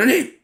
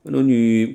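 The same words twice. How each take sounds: First: High shrieking call of God's name; outraged cry. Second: Said in the usual way. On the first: Shown as a demonstration. Habakkuk crying out to God, much higher. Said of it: "뭐 이 정도예요". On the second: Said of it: "그 정도가 아니".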